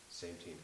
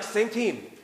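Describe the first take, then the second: First: A soft, reluctant sigh of a phrase; sighing resignation. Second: Bright, pitched-up upbeat call; eager reminder. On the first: Wife grudgingly answering husband mid-argument, sighing. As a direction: give in with a deflated sigh. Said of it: "she sighs". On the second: Husband cheerfully reminding wife mid-argument, upbeat. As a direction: chirp it like a cheerful nudge. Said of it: "So I'll be like". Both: Retold or imitated.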